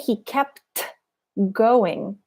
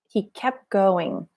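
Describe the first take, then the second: First: The T in kept is clearly pronounced. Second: The T in kept is dropped. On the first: The speaker calls it wrong. "So I don't say" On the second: The speaker calls it right. "The T disappears"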